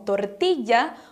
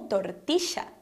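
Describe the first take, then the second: First: The double L sounds like a y. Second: The double L sounds like sh. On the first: "com sons de I" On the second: "o som do S H ... nessa região seria pronunciada como"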